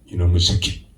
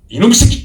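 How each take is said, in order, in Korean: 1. 욕을 조용히, 자제하며 말해요. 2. 욕을 크고 세게 소리쳐요. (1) "말하지 않으면서도 더 강하게" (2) "아주 강하게 어필이 되겠죠"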